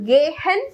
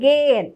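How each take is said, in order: First: The middle h is pronounced aloud. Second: The middle h is not pronounced. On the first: The speaker calls it wrong. "ഒരിക്കലും നമ്മൾ ഗേഹൻ പറയരുത്" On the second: The speaker calls it right. "ഹെൻ എന്നല്ല പ്രൊനൗൺസ് ചെയ്യുക, ഗേ എൻ"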